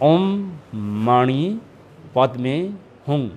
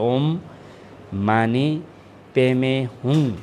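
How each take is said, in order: First: It is said with Sanskrit sounds, 'mani padme'. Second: It is said with Tibetan-style sounds, 'mane peme'. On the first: "संस्कृतको सही उच्चारण अनुसार" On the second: "त्यो भोट उच्चारण अनुसारको उच्चारण"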